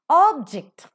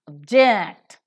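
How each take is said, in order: First: The first syllable is strong and stressed. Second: The first syllable is weak and unstressed. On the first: "or is a stressed one, or is a stronger sound" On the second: "is a weaker one"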